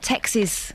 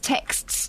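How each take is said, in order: First: The word ends with a reduced 'ksiz' sound. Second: The word ends with a full 'ksts' cluster. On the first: The speaker calls it wrong. "not texes" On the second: The speaker calls it right. "te- is texts"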